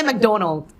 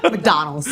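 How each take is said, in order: First: "McDonald" with "doh" for the middle syllable; mispronounced McDonald. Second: "McDonald's" with open "dah" in the middle; corrected pronunciation. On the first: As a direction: say "McDonald" as "mek-DOH-nold", pitched up. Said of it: "I would say". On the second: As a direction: say "McDonald's" as "mek-DAH-nulz". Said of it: "my friend was like". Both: Shown as a demonstration.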